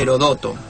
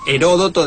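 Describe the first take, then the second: First: The stress is on the third syllable. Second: The stress is on the second syllable. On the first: "sin acento se leería" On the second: "debería llevar acento en la O porque sería claro. esdrújula"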